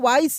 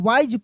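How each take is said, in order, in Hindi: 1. यह शब्द s ध्वनि से खत्म होता है। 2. यह शब्द z ध्वनि से खत्म होता है। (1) "इसको वाइस नहीं" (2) "वाइज पढ़ते हैं"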